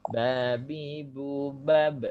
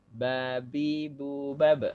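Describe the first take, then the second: No difference in how they are said.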